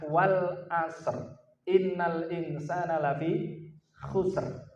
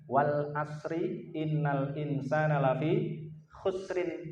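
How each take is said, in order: First: Each verse ending stops on a bare r sound. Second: The verse endings carry vowel endings and run on. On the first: The speaker calls it right. "Yang tepat ... R semua belakangnya" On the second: The speaker calls it wrong. "Biasanya dibaca dengan ... itu kurang tepat"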